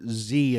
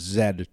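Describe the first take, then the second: First: The letter name is said the American way. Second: The letter name is said the Canadian way. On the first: This is how the other speaker's country says it. "the letter Z in your language" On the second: This is how the speaker's own country says it. "is Z to us"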